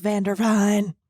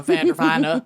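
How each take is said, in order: First: Vanderveen said as van-der-VEEN; correct pronunciation. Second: Vandervine said as van-der-VINE; wrong pronunciation. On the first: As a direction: say Vanderveen with a long ee ending. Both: Shown as a demonstration. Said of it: "it's pronounced Vanderveen".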